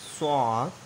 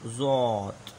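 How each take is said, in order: First: स्वात with a clean s; soft s sound. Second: ज़्वात with a buzzing z at the start; hard voiced z. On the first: Teacher setting soft against hard letter, plain s in स्वात. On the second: Teacher giving the hard voice for students, buzzing z in ज़्वात. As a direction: voice the z in ज़्वात firmly. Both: Shown as a demonstration. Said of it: "और hard voice".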